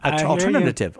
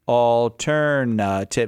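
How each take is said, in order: First: The word is said at normal speed. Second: The word is said slowly and deliberately. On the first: "once you've said it wrong" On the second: "And then I try slowing down"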